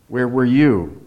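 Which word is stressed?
you. The stress falls on the word you. The speaker was there but the other person was not. "Gives another different impression"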